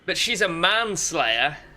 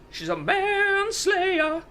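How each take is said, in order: First: It is said in a normal speaking voice. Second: It is said in a high falsetto voice.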